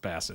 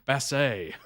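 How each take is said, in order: First: The name is said with a plain English accent. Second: The name is said with a French accent. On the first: "Oh, it's Bassett" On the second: "I really tried to add a French accent to it"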